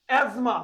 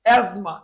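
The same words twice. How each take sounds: First: অ্যাজমা said as ezma, no t sound; correct pronunciation. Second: অ্যাজমা said loud as ezma, t silent; correct pronunciation. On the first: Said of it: "উচ্চারণ হবে অ্যাজমা". (শুদ্ধ উচ্চারণে অ্যাজমা) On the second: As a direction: stress অ্যাজমা without t. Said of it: "উচ্চারণ হবে". (জোরে শুদ্ধ উচ্চারণ) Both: Shown as a demonstration.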